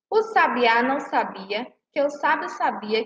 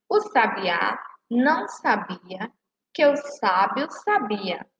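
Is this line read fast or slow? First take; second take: fast; slow. First: The line is read at a faster pace. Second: The line is read at a slower pace.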